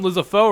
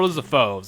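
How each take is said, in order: First: The word ends in a vowel, no final S. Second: The word ends with a final S sound. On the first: "I always pronounce them Lizopho" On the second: "or Lizophos"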